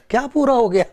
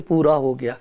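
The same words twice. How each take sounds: First: "پورا" pushed up higher in a challenging question; incredulous question. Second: Said with love. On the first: Shown as a demonstration. Preacher questioning the mourners' words, higher and challenging. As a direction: challenge the phrase "کیا پورا ہو گیا؟" with rising disbelief. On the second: Retold or imitated. Mourners lovingly speaking of the dead, tender and low. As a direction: say "پورا ہو گیا" gently, lower, like a loving farewell. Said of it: "بڑے پیار سے کہتے ہیں".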